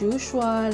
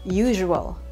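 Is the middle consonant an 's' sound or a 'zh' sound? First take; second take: s; zh. First: The middle consonant is a plain 's' sound. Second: The middle consonant is a 'zh' sound. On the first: The speaker calls it wrong. "But it's not correct" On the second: The speaker calls it right. "Yung S gagawin nating parang letter Z. Z and then letter H"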